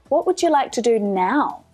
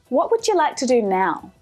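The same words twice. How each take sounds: First: The word now carries strong stress. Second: The word now carries no special stress.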